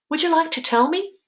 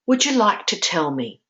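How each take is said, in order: First: Much higher, quicker, rising on "tell me"; inviting question rise. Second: Said in the usual way. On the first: Shown as a demonstration. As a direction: lift "Would you like to tell me" high, ending on an upward question. Second take, as a curious invitation.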